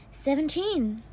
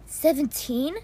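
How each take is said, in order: First: Said in the usual way. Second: Disbelieving rising "Seventeen?", said louder; surprised question. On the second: Acted. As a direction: echo "Seventeen?" in astonishment. Repeats mother's number in disbelief.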